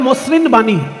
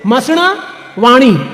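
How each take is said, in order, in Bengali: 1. এটি বাংলা ধ্বনি দিয়ে উচ্চারিত হচ্ছে। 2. এটি সংস্কৃত ধ্বনি দিয়ে উচ্চারিত হচ্ছে। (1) "এবার বাংলা বললে হয় মসৃণ বাণী" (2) "সংস্কৃত পদ উচ্চারণ করতে হবে সংস্কৃতে"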